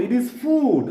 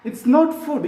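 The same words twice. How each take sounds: First: "food" said with a long oo, fooood; "food" with a long drawn oo; correct long vowel. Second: "food" said with a short clipped u, like fud; "food" with a short u, the wrong way; wrong short vowel. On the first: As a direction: stretch the oo in "food" as the correct model. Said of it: "ഫൂഡ് ആണ്". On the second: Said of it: "ഇത് ഫുഡ് അല്ല". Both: Shown as a demonstration.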